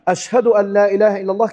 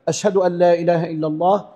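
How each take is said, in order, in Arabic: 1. تُقال بصوت عالٍ مرتفع. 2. تُقال بهدوء وبصوت منخفض. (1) "يبدأ يقولها بصوت عالي" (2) "بالراحة بصوت هادي بينه وبين نفسه، لكن يجهر جهرا خفيفا"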